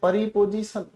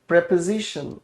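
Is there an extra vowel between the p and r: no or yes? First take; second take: yes; no. First: An extra vowel is inserted between p and r. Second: The p and r are joined with no extra vowel. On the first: The speaker calls it wrong. "कुछ लोग इसे गलत बोलते हैं" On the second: The speaker calls it right. "इसे हम कहते हैं प्रेपोजिशन। फिर से बोलना"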